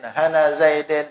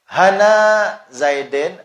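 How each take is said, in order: First: The vowel after 'han' is short. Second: The vowel after 'han' is long. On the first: The word is inflected with vowel marks only. "itu naqas" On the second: The word is inflected with letters. "itu itmam"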